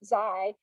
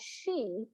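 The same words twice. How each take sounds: First: It starts like the beginning of xylophone. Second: It is said with the Chinese pronunciation. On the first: "we would pronounce it like the beginning of xylophone" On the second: "in Chinese, they pronounce that Xi"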